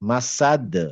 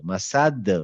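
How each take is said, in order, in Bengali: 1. শেষ ব্যঞ্জনটি একটি বাউন্সি রিলিজ দিয়ে শেষ হয়। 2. শেষ ব্যঞ্জনটি একটি বাউন্সি রিলিজ দিয়ে শেষ হয়।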